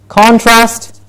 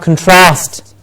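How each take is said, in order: First: The stress is on the first syllable. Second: The stress is on the second syllable. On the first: It is used as a noun. "contrast as a noun and an adjective" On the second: It is used as a verb. "and then we have contrast"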